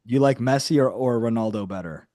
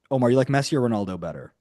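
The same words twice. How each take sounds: First: Clearer repeat. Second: Fast, offhand question tossed to a listener; quick aside. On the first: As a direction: say it again so he hears it. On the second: Asking Omar quickly which footballer he prefers, fast and offhand. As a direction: rattle it off casually. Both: Real, not acted. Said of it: "Excuse me?".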